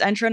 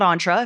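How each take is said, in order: First: Entra starting with EN, as in "enter"; the right way, Entra as EN-truh; correct pronunciation of Entra. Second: Entra starting with ON, as in "on"; the mistaken way, Entra as ON-truh; mispronunciation of Entra. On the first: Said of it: "about the pronunciation of Entra". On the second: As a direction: say Entra French-style, ON-truh. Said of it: "I've been doing it wrong". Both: Shown as a demonstration.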